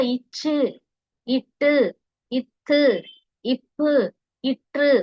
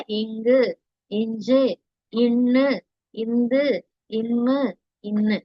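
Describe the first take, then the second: First: இச்சு, இட்டு with firmly held stops; pressed hard consonants. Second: இங்கு, இஞ்சு eased through the nasal, not pressed; mild soft consonants. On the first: Teacher repeating vallinam for pupils, hard pressed consonants. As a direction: press the doubled consonant in இப்பு before releasing. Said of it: "அழுத்தி சொல்றீங்க". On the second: Teacher showing pupils mellinam, very mild consonants. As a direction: keep the nasal in இம்மு mild and flowing. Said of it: "ரொம்ப மைல்டா சொல்றோம் இல்லையா?". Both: Shown as a demonstration.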